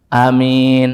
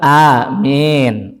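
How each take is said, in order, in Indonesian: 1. A pertama pendek, vokal pada min panjang dan biasa. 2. Vokalnya sedikit condong ke bunyi e. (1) "a-nya pendek, min-nya pan panjang" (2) "boleh itu imalah. Agak sedikit di ke arah e"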